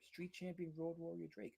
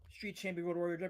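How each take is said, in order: First: The title is said slowly. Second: The title is said at normal, quicker speed.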